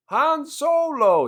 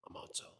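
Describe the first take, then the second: First: Slow, much higher and louder hammed-up cry of "Han Solo!"; mock excited shout. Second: Much softer, offhand "I'm Han Solo"; bored mumble. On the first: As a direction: overplay the hero's excitement. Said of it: "but he's never excited". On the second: Retold or imitated. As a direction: throw it away, totally unexcited. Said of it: "He's like".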